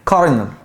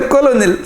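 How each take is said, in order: First: The middle has an r sound. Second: The middle has an l sound. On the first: The speaker calls it right. "في صوت ار كده" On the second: The speaker calls it wrong. "سمعتك قلت كولونيل صح. لا"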